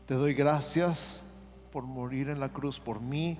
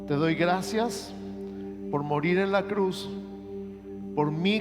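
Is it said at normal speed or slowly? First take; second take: normal speed; slowly. First: It is said at a normal pace. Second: It is said slowly and deliberately.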